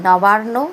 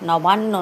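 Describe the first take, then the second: First: The word has an r sound before the n. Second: The word has a double n with no r. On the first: The speaker calls it right. "এটা নবার্ণ" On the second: The speaker calls it wrong. "নবান্ন নয় কিন্তু"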